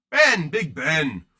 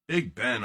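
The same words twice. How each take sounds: First: Slow, louder drawn-out "Big Ben" like a stadium call; announcer hype. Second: Said in the usual way. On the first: Pretend. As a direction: stretch "Ben" out like announcing him to a crowd. Hyping a player's nickname.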